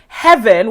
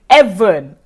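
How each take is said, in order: First: It starts with an h sound. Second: It starts with a vowel, no h sound.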